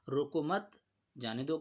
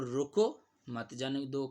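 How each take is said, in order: First: "رکو مت" grouped together, then a break before "جانے دو"; pause after مت. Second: Stressed, drawn-out "رکو", then "مت جانے دو" as one unit; pause after رکو. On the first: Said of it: "کے تو سمجھا جا سکتا ہے". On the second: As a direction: punch and stretch "رکو", then run "مت جانے دو" together. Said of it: "کے بھی طور پر استعمال کیا جا سکتا ہے". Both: Shown as a demonstration.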